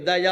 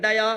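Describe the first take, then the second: First: Tongue on the teeth for the d of "దయ"; correct Telugu pronunciation. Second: "డయా" with a hard retroflex d and long final a; mock the English speaker's "డయా", tongue curled back; imitating a hard-d "డయా"; mispronounced English-style. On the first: Shown as a demonstration. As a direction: Telugu "దయ", dental d. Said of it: "దయ వేరు, దకారం వేరు". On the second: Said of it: "వాడు పలకలేడు".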